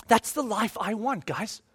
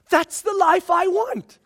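First: Softer, said to himself; soft aside. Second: Higher, slow, stress on life; a firm, lifted repeat; emphatic declaration. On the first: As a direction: murmur it quietly. Repeated line, first take. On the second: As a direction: land hard on "life". Repeated line, second take. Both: Real, not acted.

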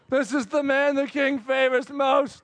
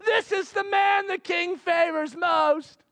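First: Grudging proclamation. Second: Herald proclamation. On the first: Haman forced to proclaim. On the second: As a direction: announce it to the whole street. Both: Retold or imitated.

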